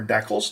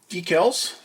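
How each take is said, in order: First: Decals with a short E, DECK-ulz. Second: Decals with a long EE, DEE-kalz. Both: Shown as a demonstration. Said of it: "depending where you're from is how you say it".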